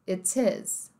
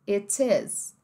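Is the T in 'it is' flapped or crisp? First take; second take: crisp; crisp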